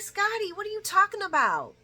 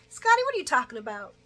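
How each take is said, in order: First: Incredulous. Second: Said in the usual way. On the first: Real, not acted. Speaker reacting to Scotty, high and incredulous. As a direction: scoff at him. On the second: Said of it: "You know".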